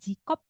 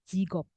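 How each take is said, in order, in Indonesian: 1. Konsonan tengahnya adalah bunyi K keras. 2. Konsonan tengahnya adalah bunyi G bersuara. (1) "bukan jikop" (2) "tapi jigop"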